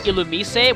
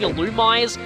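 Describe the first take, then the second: First: The name is said in a Japanese-style way. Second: The name is said in an anglicized way. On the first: This is the original way of saying it. The speaker calls it right. "the correct pronunciation is Illumise, which is actually its Japanese pronunciation" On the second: This is the habitual way of saying it. The speaker calls it wrong. "I always call this thing Illumise"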